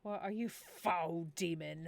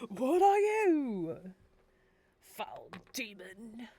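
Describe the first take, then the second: First: Mock-grand challenge to a demon; lightly hammed-up accusation; dramatic accuser. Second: Hammed-up accuser. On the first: Villager challenging a supposed demon, mock-dramatic accusation. Acting out dialogue with Hob Elf. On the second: Villager confronting a foul demon, loud hammed-up slow accusation. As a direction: cry out the challenge theatrically, then slow right down. Louder retake of acted dialogue.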